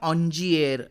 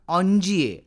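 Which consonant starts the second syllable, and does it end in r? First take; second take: j, r; j, no r. First: A soft j sound, ending with an r. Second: A soft j sound, with no final r. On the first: Some people say it this way. "कुणी याचा उच्चार ऑन्जिएर असा करतात" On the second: This is how it is said in French. "पण फ्रेंचमध्ये त्याचा उच्चार ऑन्जिये असाच होतो"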